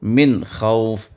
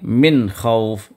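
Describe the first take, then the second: No difference in how they are said.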